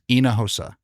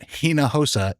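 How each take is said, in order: First: The name begins with a silent H. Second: The name begins with a pronounced H sound. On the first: The speaker calls it right. "the H in Hinojosa is completely silent" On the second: The speaker calls it wrong. "it's not Hinojosa"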